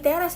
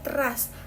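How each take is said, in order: First: The first vowel is a clear open e. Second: The first vowel is a reduced schwa. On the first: The speaker calls it right. "bacanya tuh di teras ya" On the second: The speaker calls it wrong. "bukan di teras"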